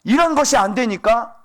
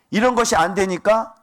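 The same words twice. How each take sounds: The two takes are said the same way.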